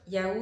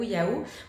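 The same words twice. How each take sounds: First: The word is said quickly with normal movement. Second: The word is drawn out very slowly and broadly. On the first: The speaker calls it wrong. "pas seulement juste Yahoo" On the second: The speaker calls it right. "comme si j'étais au ralenti dans un film"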